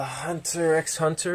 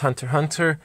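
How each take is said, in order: First: The middle X is spoken aloud. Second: The middle X is left out entirely. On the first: This is the speaker's own way of saying it. "is the way I pronounce it" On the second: This is how most other people say it. "everyone else says"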